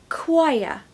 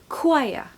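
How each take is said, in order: The two takes are said the same way.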